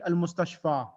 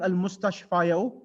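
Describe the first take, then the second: First: The word ends in a plain long 'a'. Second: The word ends with an added 'yu' sound. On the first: The case ending stays hidden and silent. The speaker calls it right. "you just read al-mustashfa" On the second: The case ending is pronounced aloud. The speaker calls it wrong. "instead of reading al-mustashfayo, you don't read that"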